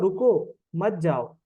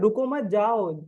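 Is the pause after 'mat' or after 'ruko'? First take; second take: after ruko; after mat. First: There is a pause right after 'ruko'. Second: There is a pause right after 'mat'. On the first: The listener is told to stay and not leave. "Comma लगा हुआ है" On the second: The listener is told not to stop but to go. "Comma नीचे क्या लेंगे"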